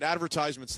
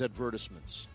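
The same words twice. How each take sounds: First: The word is said in a plain, ordinary way. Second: The word is said in a posh, British-sounding way. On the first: The speaker sounds ordinary and unpretentious. "All right, advertisements then. I don't want tea and crumpets" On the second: The speaker sounds refined and upper-class. "I like a guy who says advertisements"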